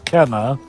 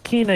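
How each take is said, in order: First: The first vowel sounds like 'eh'. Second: The first vowel sounds like 'ee'. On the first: The speaker calls it right. "even though it is Kenna" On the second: The speaker calls it wrong. "a lot of people pronounce this as Kina"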